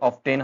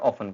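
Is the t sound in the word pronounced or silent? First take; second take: pronounced; silent. First: The t sound is clearly pronounced. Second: The t sound is left out. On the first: The speaker calls it wrong. "ऑफ्टेन हम बोल देते हैं" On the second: The speaker calls it right. "यहाँ पे टी जो है silent रहता है"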